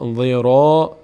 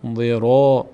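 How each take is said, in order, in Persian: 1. ر پرخوان است، با فتحه. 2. ر پرخوان است، با فتحه.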